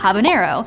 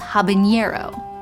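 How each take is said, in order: First: The N is a plain N sound. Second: The N is an NY sound, like ñ. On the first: The speaker calls it right. "is spelled with an N" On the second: The speaker calls it wrong.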